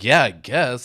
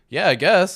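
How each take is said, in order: First: It is said in a resentful, suspicious tone. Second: It is said in a cheerful, simple tone.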